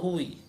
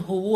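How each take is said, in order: First: The word ends with an i vowel. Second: The word ends with a u vowel. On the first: "tidak mungkin huwu atau huwi" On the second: "tidak mungkin huwu"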